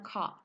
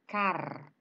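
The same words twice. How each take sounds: First: British accent, with the R dropped. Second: American accent, with the R clearly pronounced.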